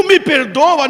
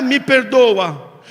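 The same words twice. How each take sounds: First: "me perdoa" punched loud; "me perdoa" said with force; emphatic plea. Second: Said in the usual way. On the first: Shown as a demonstration. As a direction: hit "me perdoa" hard and loud. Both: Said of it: "não era".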